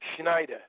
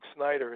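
First: The name begins with a 'shn' sound. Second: The name begins with a plain 's' sound. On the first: This is how the family said the name. "It was S-C-H-N-A-D-A-H" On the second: This is the usual way the name is said. "Duke Snyder was never Duke Snyder in my house"

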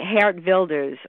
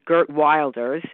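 First: The name is said with a Dutch pronunciation. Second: The name is said with an American pronunciation. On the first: The speaker calls it right. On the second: The speaker calls it wrong.

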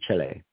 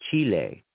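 First: The first vowel is short, rhyming with chili. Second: The first vowel is long. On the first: "the first thing that rolled off my lips was Chele, but, you know, like chili" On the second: "in English anyway, the first vowel would be long"

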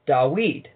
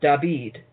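First: The middle consonant is a W sound. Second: The middle consonant is a V sound. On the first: This is the older Septuagint form of the name. "it was a W" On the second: This is the later New Testament form of the name. "it became a V pronunciation"

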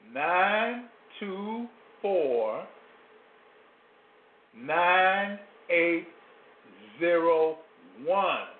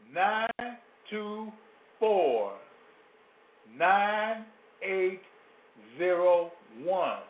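First: The number is said slowly. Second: The number is said at normal speed.

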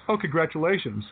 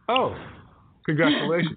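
First: It is said smoothly without a pause. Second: There is a pause before the word. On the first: The speaker is congratulated without hesitation. "Used to be they would say things like" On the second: The speaker is unsure how to respond to the age. "they pause. So they go"

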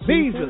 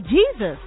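First: It is said calmly and plainly. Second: It is said with emotion and excitement.

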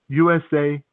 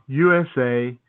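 Both takes have the same delivery.

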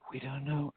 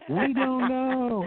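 First: It is said quietly. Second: It is said loudly.

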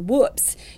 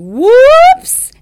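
First: The vowel is short and clipped. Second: The vowel is stretched out and exaggerated. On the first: The speaker calls it wrong. "instead of saying something like" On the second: The speaker calls it right. "really exaggerate and elongate that vowel"

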